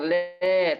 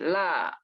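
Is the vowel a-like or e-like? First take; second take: e-like; a-like. First: The vowel is tilted toward an e sound. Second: The vowel is a full open a sound. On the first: The speaker calls it wrong. "bukan le" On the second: The speaker calls it right. "tapi la"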